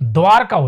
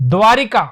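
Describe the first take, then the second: First: No vowel follows the r sound. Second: An i vowel follows the r sound. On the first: The speaker calls it right. "द्वारका होता है" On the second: The speaker calls it wrong. "गलत"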